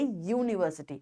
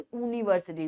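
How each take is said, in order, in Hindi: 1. यह शब्द 'y' व्यंजन ध्वनि से शुरू होता है। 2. यह शब्द सादे स्वर की ध्वनि से शुरू होता है। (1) "वी से यूनिवर्सिटी" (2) "we don't say यूनिवर्सिटी"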